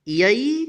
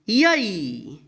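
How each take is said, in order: First: यई with a short, rising final i; short vowel. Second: यई with a long, falling final ee; long vowel. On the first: Teacher reciting the य series to learners, short vowel. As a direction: end यई briefly, going up. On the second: Teacher reciting the य series to learners, long vowel. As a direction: stretch यई out, up then down. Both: Shown as a demonstration. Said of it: "य का बारह खड़ी".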